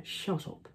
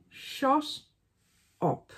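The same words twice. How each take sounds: First: Breathy whispered "shut up", no voice at all. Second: "Shut" rising high, then a flat "up"; higher shut up. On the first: Whispering "shut up" at herself mid-review. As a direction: hiss "shut up" to herself under her breath. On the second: Scolding herself with a high rising "Shut". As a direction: pitch "Shut" up high and let it rise. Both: Pretend.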